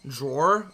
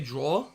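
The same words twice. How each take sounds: First: It is said in an attempted American accent. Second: It is said in the speaker's own non-American accent.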